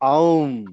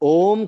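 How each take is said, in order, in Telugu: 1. అచ్చు 'au' ద్విస్వరంలా జారుతుంది. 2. అచ్చు సాదాగా, స్థిరంగా 'o' ఉంటుంది. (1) "ఔం అది" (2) "అది ఓం కాదు"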